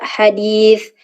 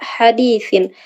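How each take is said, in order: First: The word ends on a bare consonant. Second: The word ends with an -in syllable. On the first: The reader stops on this word. "ketika wakof dibaca" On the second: The reader continues without stopping. "ketika wasol dibaca"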